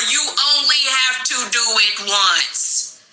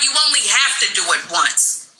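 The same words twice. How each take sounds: First: It is said slowly. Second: It is said at normal speed.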